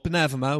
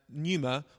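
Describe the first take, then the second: First: The word is given its modern Greek pronunciation. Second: The word is not given its modern Greek pronunciation.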